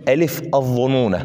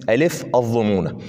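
No difference in how they are said.

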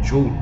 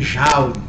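First: It is said with a British English accent. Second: It is said with a Brazilian accent.

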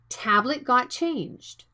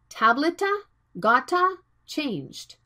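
First: Tablet and got end cleanly without added vowels. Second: Extra vowel sounds follow tablet and got. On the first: The speaker calls it right. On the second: The speaker calls it wrong.

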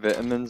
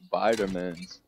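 First: It is said in a non-American accent. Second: It is said in an American accent.

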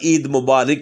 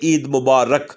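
First: The last syllable is not 'rak'. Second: The last syllable is 'rak'. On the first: The speaker calls it wrong. "ये मुबारिक नहीं होता" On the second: The speaker calls it right. "रक होता है"

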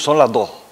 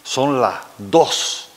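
First: The final S sounds are weakened and aspirated. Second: The final S sounds are fully pronounced. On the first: "debilitamos y aspiramos la letra S al final de la palabra" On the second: "nunca decimos son las dos"

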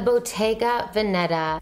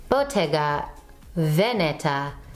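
First: The name is said with plain English sounds. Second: The name is said with careful Italian-style sounds. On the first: This is the speaker's own everyday way of saying it. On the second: This is the way viewers insist it should be said.

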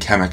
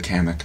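First: The first vowel sounds like an 'e'. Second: The first vowel sounds like an 'a'. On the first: The speaker calls it wrong. "I think I'm saying Kennick instead of Kennick. There's like an E where there isn't" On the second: The speaker calls it right. "Where like the A word"

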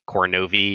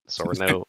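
First: The first sound is a hard K. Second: The first sound is a soft S. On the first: The speaker calls it right. "all of the C's in this game are going to be hard instead of soft" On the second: The speaker calls it wrong. "instead of"

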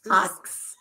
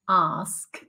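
First: The K comes before the S sound. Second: The S comes before the K sound. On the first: "Which is pronounced asks" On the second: "metathesize K and S in the word ask"

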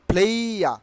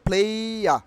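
No difference in how they are said.

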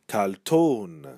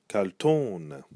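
First: The final syllable is drawn out and nasal. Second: The same.

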